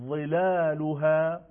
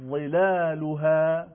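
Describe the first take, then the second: No difference in how they are said.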